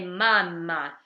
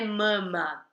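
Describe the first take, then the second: First: The A vowel is very open. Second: The A vowel is less open. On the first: The speaker calls it right. "esse A é bem aberto" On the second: The speaker calls it wrong. "não é mama"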